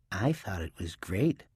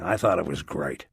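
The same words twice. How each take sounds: First: Softer, teasing mimicry of his words; mocking. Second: Said in the usual way. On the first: A narrator's reading. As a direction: throw his line back at him mockingly. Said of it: "in a mocking voice".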